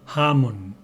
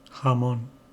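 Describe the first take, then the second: First: One syllable is stressed more than the other. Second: Both syllables are said with equal strength. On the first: The speaker calls it wrong. "There are no stressed syllables like in English or Spanish. We don't say" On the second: The speaker calls it right. "all the syllables are pronounced equally, with the same strength"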